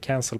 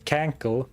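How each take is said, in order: First: The second consonant is an s sound. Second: The second consonant is a k sound. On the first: The speaker calls it right. "how to say cancel properly" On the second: The speaker calls it wrong. "I was pronouncing it as cankle for years"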